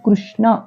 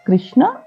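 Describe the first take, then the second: First: The first syllable is said with a 'ru' sound. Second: The first syllable is said with an 'i' vowel. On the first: The speaker calls it right. "రుకారం కృష్ణ అని పలకాలి" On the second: The speaker calls it wrong. "కృష్ణ కాదు"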